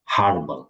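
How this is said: It is said with a British accent.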